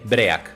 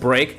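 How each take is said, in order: First: It is said with a Spanish-style pronunciation. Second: It is said with a natural English pronunciation. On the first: The speaker calls it wrong. "say it in broken Spanglish" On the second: The speaker calls it right. "instead of break"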